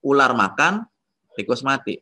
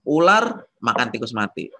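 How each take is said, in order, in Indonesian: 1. Jedanya jatuh setelah kata makan. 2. Jedanya jatuh setelah kata ular. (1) "Ularnya lagi makan, tikusnya mati mati sendiri" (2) "Jadi si ular makan tikus yang sudah mati"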